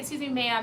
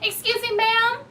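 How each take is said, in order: First: It is said at a calm, normal volume. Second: It is shouted loudly and urgently. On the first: The customer is asking politely. The speaker calls it right. "but you can say" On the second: The customer is demanding attention rudely. The speaker calls it wrong. "You don't have to scream it"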